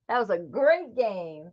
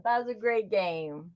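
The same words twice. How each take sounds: First: Said in the usual way. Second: Repeated more softly, dropping away; soft echo. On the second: Real, not acted. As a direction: echo it back quietly to yourself. Repeats her own line.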